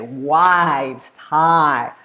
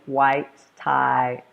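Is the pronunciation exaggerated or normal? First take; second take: exaggerated; normal. First: The words are said with exaggerated mouth movement. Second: The words are said with ordinary mouth movement. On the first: "I also suggest that you exaggerate" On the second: "when you do it normally"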